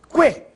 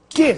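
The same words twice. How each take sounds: First: The u is pronounced, giving a kw sound. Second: The u is silent, giving a plain k sound. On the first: "Agora sim, você ouviu o som da letra U" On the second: "que não pronunciado"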